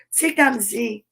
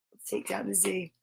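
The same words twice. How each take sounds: First: Said in the usual way. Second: Soft, secretive whisper of "Let's take down the Z". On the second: Shown as a demonstration. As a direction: breathe the words like a secret. Repeats line whispered, then plain.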